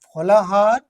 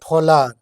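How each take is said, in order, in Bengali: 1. মাঝের 'h' ধ্বনিটি উচ্চারিত হয়। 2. মাঝের 'h' ধ্বনিটি লোপ পায়।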